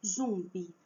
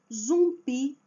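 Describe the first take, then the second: First: "Zumbi" as ZUM-bi, ending weak; wrong stress on first syllable. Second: "zumbi" loud, as zum-BI; stress on last syllable. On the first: Teacher shows what nobody says, "Zumbi" stressed on ZUM. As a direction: hit ZUM and drop the end of "Zumbi". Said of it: "ninguém fala assim". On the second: Teacher lists examples, "zumbi" loudly stressed on final BI. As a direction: hit the BI of "zumbi". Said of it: "a última sílaba é a forte". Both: Shown as a demonstration.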